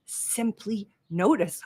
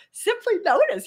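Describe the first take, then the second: First: Slow calm mantra. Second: Simply notice jumping much higher, "notice" pushed and falling; emphatic high mantra. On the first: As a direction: let it land like a mantra, slow. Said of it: "what Rick says in his book". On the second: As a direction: proclaim it like the tattoo slogan. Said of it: "got a tattooed on his arm". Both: Shown as a demonstration.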